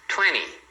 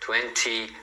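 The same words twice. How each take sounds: First: The T after the N is dropped. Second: The T after the N is clearly pronounced. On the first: This is how native speakers often say it. "pode ser pronunciado assim, porque você vai escutar assim" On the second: This is how learners usually say it. "os alunos têm a tendência de falar"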